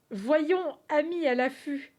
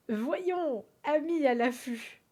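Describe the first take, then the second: First: Loud, grand reading of the riddle; loud dramatic read. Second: Said in the usual way. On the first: Shown as a demonstration. Streamer reading the riddle aloud to chat, loud and grand. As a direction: boom it out like a proclamation. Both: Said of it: "On recommence".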